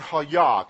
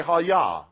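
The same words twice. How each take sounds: First: Hayah said clearly as HAH-yah; saying hayah. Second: "hayah"? repeated for the people, loud; saying hayah. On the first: Preacher teaching the congregation to say "hayah", spoken clearly. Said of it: "Can we say "hayah"?". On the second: Preacher leading the room to repeat "hayah", said loudly. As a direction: model "hayah" as HAH-yah for them to echo. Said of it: "Can we say". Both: Shown as a demonstration.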